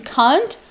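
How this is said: It is said in a British accent. "para britânicos"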